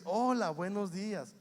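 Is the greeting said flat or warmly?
warmly. The greeting is said warmly with expression.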